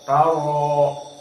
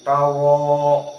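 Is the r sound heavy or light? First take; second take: heavy; heavy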